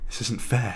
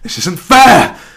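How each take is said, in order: First: It is said quietly. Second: It is said loudly.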